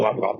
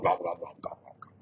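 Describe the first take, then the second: First: Loud monster gobbling; the fire eater chomps buildings; louder gobble. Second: Hushed, breathy gobbling; the fire eater gobbles quietly; whispered gobble. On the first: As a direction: gobble it out hungrily. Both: Shown as a demonstration. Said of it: "making that noise".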